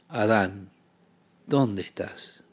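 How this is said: It is said in a sobbing, grieving, tender tone. A heartbroken parent grieves over a child's mistake. The speaker calls it right. "el sollozo de un padre con el corazón roto ante su hijo que metió la pata"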